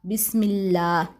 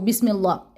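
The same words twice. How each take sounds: First: The last vowel is held long and stretched. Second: The last vowel is said quickly and short. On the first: The speaker calls it right. "ऐसे इतना ही हरकत इसको लंबा करना है" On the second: The speaker calls it wrong. "जल्दी जल्दी नहीं आपने पढ़ना, यानी इसको बिस्मिल्लाह ऐसे नहीं पढ़ देना"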